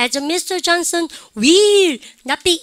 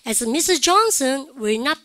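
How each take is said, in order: First: Every word is stressed loudly and evenly. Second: The small function words are said weakly. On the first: The speaker calls it wrong. "그렇게 읽으시면 돼요 안 돼요? 안 돼요" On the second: The speaker calls it right. "아무도 그렇게 발음하지 않고"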